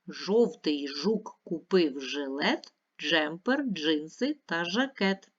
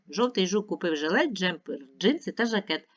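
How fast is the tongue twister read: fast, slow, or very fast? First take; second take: slow; very fast. First: The line is read at a slow pace. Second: The line is read at the fastest pace. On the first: "Ще раз повільно читаємо" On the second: "Ще швидше"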